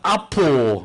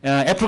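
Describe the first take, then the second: First: It has an ah vowel and ends in o. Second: It has an a as in cat and a p sound.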